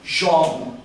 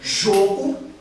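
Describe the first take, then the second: First: The stressed o vowel is open. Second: The stressed o vowel is closed. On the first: "ó aberto" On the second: "ó fechado"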